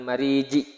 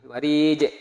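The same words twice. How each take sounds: First: "mariji" ending in an i sound; wrong final vowel. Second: "marije" with final j released into a short e; correct bounced ending. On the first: Teacher showing students the mistake, "mariji" ending on ji. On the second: Teacher correcting the ending for students, "marije" with echoed j. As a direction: bounce the last consonant of "marije". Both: Shown as a demonstration. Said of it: "Bukan mariji".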